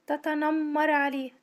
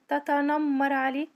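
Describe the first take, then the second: No difference in how they are said.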